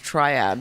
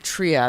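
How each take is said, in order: First: The first syllable sounds like try. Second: The first syllable sounds like tree. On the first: "takes the trying out of it" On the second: "puts the tree in"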